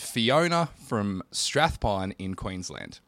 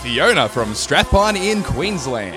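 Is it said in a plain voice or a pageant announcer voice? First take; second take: plain; pageant announcer. First: It is said in a plain, ordinary voice. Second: It is said like a pageant announcer.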